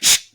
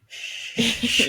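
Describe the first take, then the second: First: The shush sounds harsh and unkind. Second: The shush sounds gentle and kind.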